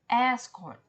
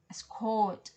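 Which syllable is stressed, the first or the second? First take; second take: first; second. First: The stress is on the first syllable. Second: The stress is on the second syllable. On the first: It is a noun. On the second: It is a verb.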